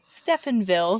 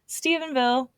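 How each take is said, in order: First: It is said with an f sound, like Stefan. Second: It is said with a v sound, like Steven. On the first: The speaker calls it wrong. "every time I see it, I want to say Stephenville" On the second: The speaker calls it right. "It's not Stephenville"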